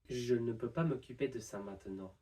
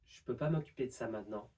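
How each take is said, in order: First: Every syllable is said in full. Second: Several vowels and sounds are dropped.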